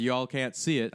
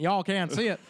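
First: Slight Southern twang; slipping Southern. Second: Put-on higher-pitched, playful Southern accent. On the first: Real, not acted. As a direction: let a little Southern accent slip in. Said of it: "I don't know why I got Southern". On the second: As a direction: repeat it with a hammed-up Southern twang. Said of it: "I got Southern there for a second".

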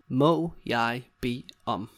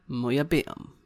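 First: Slow, separated words. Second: Said in the usual way. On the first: Shown as a demonstration. Teacher showing another way to ask, word by word. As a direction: set each word apart for learners.

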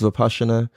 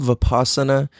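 First: Vipassana with an SH sound for the double S; correct pronunciation. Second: Vipassana said as written, with an S sound; as spelled. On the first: Explaining how the meditation is pronounced, Vipassana said with SH. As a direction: say Vipassana as "vi-PAH-sha-na". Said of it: "but it's pronounced Vipassana". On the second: Explaining the meditation's spelling, Vipassana read as written with S. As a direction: say Vipassana by its spelling, a plain S in the middle. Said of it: "it's spelled Vipassana". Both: Shown as a demonstration.

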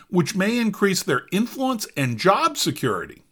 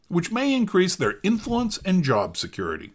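First: Said in the usual way. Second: Re-reads it with stress on "may", leaning on "may increase their influence and job security"; emphasized quote. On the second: Shown as a demonstration. Rereading a quoted line for viewers, "may" and "job security" pointedly stressed. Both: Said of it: "Let's emphasize that last part".

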